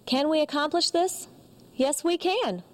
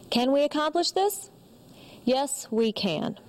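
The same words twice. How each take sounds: First: It is spoken at a raised, high pitch. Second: It is spoken at a lowered, low pitch.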